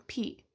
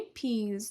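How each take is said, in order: First: پی as pee, ending on the vowel; teacher's singular model of پی; no plural S. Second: Peas with a long ee and a final Z; teacher's plural model of peas. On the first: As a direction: leave the final Z sound off پی. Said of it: "بدون اس جمع". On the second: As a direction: add the buzzing ending to peas. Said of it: "اگه منظورمون تعداد زیادی باشه". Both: Shown as a demonstration.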